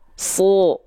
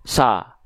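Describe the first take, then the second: First: The vowel sounds like a thick O. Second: The vowel sounds like a thin A. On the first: The speaker calls it right. "tapi dia dibaca su" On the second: The speaker calls it wrong. "nggak dibaca sa"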